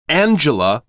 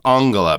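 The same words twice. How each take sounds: First: The name is pronounced the English way. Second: The name is pronounced the German way. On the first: "Angela would be the English pronunciation of that name" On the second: "I believe that's closer to the German pronunciation"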